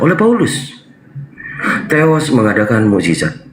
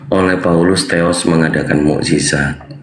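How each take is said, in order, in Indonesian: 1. Ada jeda tepat setelah "Paulus". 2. Dibaca langsung tanpa jeda.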